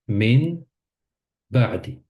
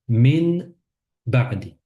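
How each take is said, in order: No difference in how they are said.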